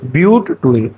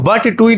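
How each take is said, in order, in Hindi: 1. पहला अक्षर 'byoot' जैसा लगता है। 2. पहला अक्षर 'butt' जैसा लगता है। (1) "क्या पढ़ा जाता है" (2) "इसको बट टू इन नहीं पढ़ा जाता है"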